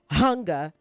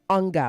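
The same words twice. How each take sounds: First: The initial H sound is pronounced. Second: The initial H sound is dropped. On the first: The speaker calls it right. "Pronounce the H in hunger" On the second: The speaker calls it wrong. "Don't drop it"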